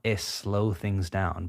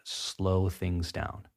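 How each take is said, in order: First: An extra vowel sound comes before slow. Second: Slow begins directly with the s sound. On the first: The speaker calls it wrong. "Not es slow things down" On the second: The speaker calls it right. "but slow things down"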